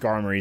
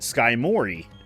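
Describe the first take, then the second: First: The first syllable sounds like 'skar'. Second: The first syllable sounds like 'sky'. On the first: The speaker calls it right. "Skarmory is the pr- correct pronunciation" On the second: The speaker calls it wrong. "I would call it Skymori"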